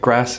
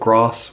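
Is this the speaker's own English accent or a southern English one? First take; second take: own accent; southern English. First: It is said in the speaker's own English accent. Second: It is said in a southern English accent.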